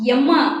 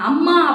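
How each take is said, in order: First: The word begins with an 'e' vowel. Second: The word begins with an 'a' vowel. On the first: "எம்மா அப்படி கூப்பிடுவோம்" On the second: "அம்மா, அப்பான்னு சொல்ல மாட்டோம்"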